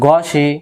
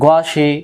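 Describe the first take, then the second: Both takes have the same delivery.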